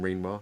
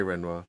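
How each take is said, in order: First: "Renoir" with a long ee up front; "Renoir" starting like "reen"; Renoir said REEN-wah. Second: "Renoir" with a short e up front; "Renoir" starting like "wren"; Renoir said REN-wah. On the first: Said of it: "never heard of the name Renoir". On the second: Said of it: "we're gonna say Renoir". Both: Shown as a demonstration.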